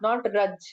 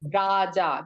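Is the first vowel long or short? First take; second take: short; long. First: The first vowel is short and clipped. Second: The first vowel is long and drawn out. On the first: The speaker calls it wrong. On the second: The speaker calls it right. "when there is a bar on A, we have to recite it like a A"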